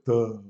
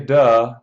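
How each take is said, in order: First: It is said in a dopey, dark, lowered voice. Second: It is said in a plain, normal voice. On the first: "like I'm making fun of somebody" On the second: "my larynx stays there"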